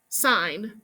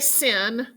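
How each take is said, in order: First: The word has a long vowel, like 'line'. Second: The word has a short vowel, like 'pin'. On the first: The speaker calls it right. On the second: The speaker calls it wrong. "Don't say sin"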